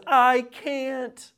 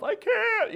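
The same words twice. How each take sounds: First: High, louder mimicked child's refusal; child refusing. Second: Put-on to father about cutting steak, high-pitched straining child; very high, drawn-out child's "I can't"; struggling child. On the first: Three-year-old to father asking for cup, mimicked high refusal. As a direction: imitate a small child simply refusing, voice pitched up. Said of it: "she just simply says". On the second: Father mimics daughter unable to cut steak, high child voice. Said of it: "I'm not talking about that".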